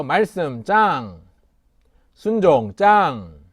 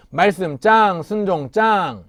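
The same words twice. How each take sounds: First: Slow, loud chant line; children's sermon leader modeling a chant; slow call for the kids to repeat. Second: High, loud rallying chant; chanted, call it out with more energy; louder chant for the kids to repeat. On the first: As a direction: say it slowly so children can echo. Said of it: "한번 따라할까요?". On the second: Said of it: "한 번 더, 시작". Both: Shown as a demonstration.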